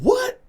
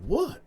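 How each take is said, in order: First: Much higher, louder stunned what; outraged yelp at the accusation; shocked shout. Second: High, puzzled what; startled high question; confused what. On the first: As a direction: blurt it out in disbelief. Accused of sleeping with wife. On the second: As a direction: ask it like you misheard. Stunned reply to friend. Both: Retold or imitated.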